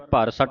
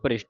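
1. bh ਅਤੇ r ਦੇ ਵਿਚਕਾਰ ਇੱਕ ਸਵਰ ਆਉਂਦਾ ਹੈ। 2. bh ਅਤੇ r ਇੱਕ ਸ਼ੁਰੂਆਤੀ ਸਮੂਹ ਬਣਾਉਂਦੇ ਹਨ। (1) "ਭਰ ਸੱਟ ਨਹੀਂ ਕਹਿਣਾ" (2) "ਭ੍ਰਿਸ਼ਟ ਪੜਨਾ ਹੈ"

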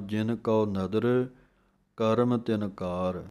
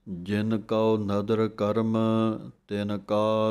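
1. विराम karam के बाद नहीं आता। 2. विराम karam के ठीक बाद आता है। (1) "ਇਹ ਵਿਸਰਾਮ ਗਲਤ ਹੈ।" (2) "ਕਰਮ ਦੇ ਉੱਤੇ ਵਿਸਰਾਮ ਲਾਉਣਾ ਹੈ।"

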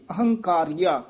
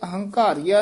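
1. ਵਿਚਕਾਰਲਾ ਵਿਅੰਜਨ k ਧੁਨੀ ਹੈ। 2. ਵਿਚਕਾਰਲਾ ਵਿਅੰਜਨ gh ਧੁਨੀ ਹੈ। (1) "ਕੱਕੇ ਨਾਲ ਉਚਾਰਨ ਕਰਨਾ" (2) "ਨਹੀਂ ਕਹਿ ਦੇਣਾ ਘੱਗਾ ਲਾ ਕੇ"

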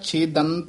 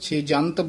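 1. ਵਿਚਕਾਰਲਾ ਵਿਅੰਜਨ d ਦੀ ਆਵਾਜ਼ ਹੈ। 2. ਵਿਚਕਾਰਲਾ ਵਿਅੰਜਨ j ਦੀ ਆਵਾਜ਼ ਹੈ। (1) "ਇਸੇ ਤਰ੍ਹਾਂ ਛੇਦੰਤ ਉਚਾਰਨ ਕਰਨਾ ਹੈ" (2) "ਕਈ ਪਾਠੀ ਸਿੰਘ ਛੇਜੰਤ ਬੋਲ ਜਾਂਦੇ ਹਨ, ਜੱਜਾ ਲਾ ਜਾਂਦੇ ਹਨ"

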